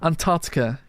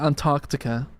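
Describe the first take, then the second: First: The C sound after 'ar' is dropped. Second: The C sound after 'ar' is pronounced. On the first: "Yeah, I think that's how people say it" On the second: "Because I say Antarctica, but I don't think people pronounce the C"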